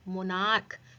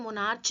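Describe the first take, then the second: First: The word ends with a k sound. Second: The word ends with a ch sound. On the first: The speaker calls it right. "क्या बोलेंगे, मोनार्क" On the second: The speaker calls it wrong. "इसे मोनार्च नहीं बोलेंगे"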